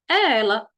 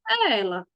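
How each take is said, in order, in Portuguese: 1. A voz desce no final, como uma afirmação. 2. A voz vai sumindo no fim, como se ficasse inacabada. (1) "Você está afirmando" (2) "Dando a entender que teria mais"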